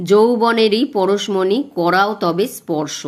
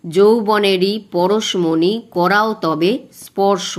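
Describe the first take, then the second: First: Slow verse reading, stress on যৌবনেরই; slow recitation. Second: যৌবনেরই পরশমণি read slower, with the stresses marked where the breath falls; beats marked. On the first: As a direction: recite slowly, leaning on the stressed beats. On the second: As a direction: mark each stress and cut there. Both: Shown as a demonstration. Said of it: "যেখানে তোমার শ্বাসাঘাত পড়বে".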